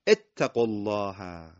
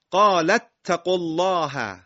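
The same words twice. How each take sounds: First: "اتقوا الله" begun alone as ettaqullaha, slow and lower; hamza with kasra. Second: Loud, high "قال اتقوا الله" linked as qala-ttaqullaha; joined recitation. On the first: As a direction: start "اتقوا" on e/i, drawn out low. (شروع آرام «اتقوا» با کسره) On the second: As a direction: run "قال" into the doubled t of "اتقوا". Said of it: "علامت روی تشدیده که فتحه داره". (تلاوت بلند، وصل «قال» به «اتقوا») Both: Shown as a demonstration.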